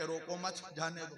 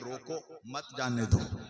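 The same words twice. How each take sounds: First: The pause comes after 'mat'. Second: The pause comes after 'roko'.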